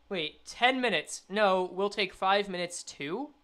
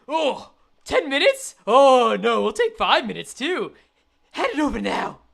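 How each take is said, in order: First: Said in the usual way. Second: Hammed-up villain haggling; greedy thug. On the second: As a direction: play a robber raising the demand. Thug voice, then same words reread plain.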